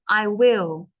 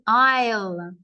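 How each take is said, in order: First: I and will are said as separate words. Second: I and will are joined into one syllable. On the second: "This is I'll"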